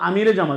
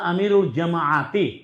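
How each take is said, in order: First: It links with 'e' and ends on 't'. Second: It links with 'ul' and ends on 'ti'. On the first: "এটা হচ্ছে উর্দু উচ্চারণ" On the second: "এটা আরবি শব্দ হচ্ছে"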